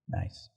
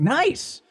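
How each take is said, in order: First: It sounds displeased and disapproving. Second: It sounds pleased and approving. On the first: The speaker dislikes what was done. "or someone does something you don't like" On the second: The speaker likes what was done. "it's like someone does something"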